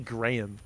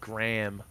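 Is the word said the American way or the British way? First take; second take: British; American. First: The word is said with a British pronunciation. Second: The word is said with an American pronunciation. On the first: The speaker calls it right. "It's clearly Graham" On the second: The speaker calls it wrong. "Why the fuck do Americans pronounce it Graham?"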